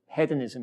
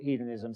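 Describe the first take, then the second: First: The word is said with a British pronunciation. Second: The word is said with an American pronunciation. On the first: This is how the speaker thinks of the word. "I wrote a novel called Hedonism in my head" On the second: This is how the speaker must say it publicly. "but I have to call it hedonism"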